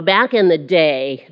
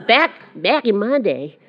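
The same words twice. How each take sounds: First: Said in the usual way. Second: Put-on Southern old-timer; lightly hammed-up Southern accent. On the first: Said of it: "I gotta use the Southern accent to go with that". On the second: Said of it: "Southern accent, I'm sorry".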